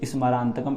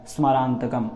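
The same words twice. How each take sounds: First: The first consonant is pronounced fully with a vowel. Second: The first consonant is pronounced only as a half sound. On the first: The speaker calls it wrong. "इस प्रकार से ना निकले" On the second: The speaker calls it right. "केवल आधा सा ही उच्चारण में निकले"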